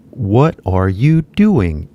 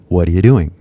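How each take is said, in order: First: "What are you doing" said slowly with every word clear; slow full form. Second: "What are you doing" run together fast as "Whatcha doing"; quick reduced form. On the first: Teacher shows the full form before the reduced one. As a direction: spell out each word slowly. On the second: Teacher shows what the full form turns into. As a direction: squeeze it into one quick phrase. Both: Shown as a demonstration. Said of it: "equal to".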